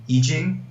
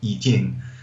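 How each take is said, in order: First: It is said with an English pronunciation. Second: It is said with a Mandarin pronunciation.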